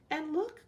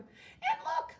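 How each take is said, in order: First: It is cried in a middle-sized voice. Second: It is squealed in a little voice.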